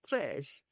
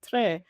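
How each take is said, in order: First: The word ends with a clear 'sh' sound. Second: The word ends on the vowel, without 'sh'. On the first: "if I say trash" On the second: "you're not pronouncing the S on the end"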